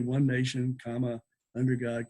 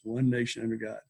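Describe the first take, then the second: First: There is a break after nation. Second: It is said as one unbroken phrase. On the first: The speaker calls it wrong. "You don't say one nation, comma, under God, comma" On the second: The speaker calls it right. "one nation under God is one phrase"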